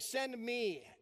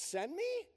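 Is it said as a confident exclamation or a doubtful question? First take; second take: exclamation; question. First: It is said as a confident exclamation. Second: It is said as a doubtful question.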